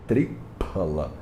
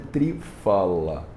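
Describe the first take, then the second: First: The middle consonant is a P sound. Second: The middle consonant is an F sound. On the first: The speaker calls it right. "Então o remédio chama tripala" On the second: The speaker calls it wrong. "Não é trifala"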